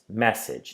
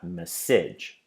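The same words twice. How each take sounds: First: The stress is on the first syllable. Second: The stress is on the second syllable. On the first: The speaker calls it right. "the stress is on the first syllable. It's message" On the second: The speaker calls it wrong. "not message"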